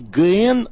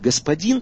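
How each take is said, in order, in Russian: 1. Слово сокращено до короткого сочетания согласных. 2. Слово произносится полностью, со всеми гласными. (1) "напоминая одно не литературное слово" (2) "будет произноситься легко и приятно"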